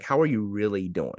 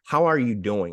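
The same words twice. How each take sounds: First: "really" leaned on to make it sincere; "really" given weight, asked in earnest; stress on really. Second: Said in the usual way. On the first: Shown as a demonstration. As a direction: press the word "really" so the question means it. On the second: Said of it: "we really don't ask people".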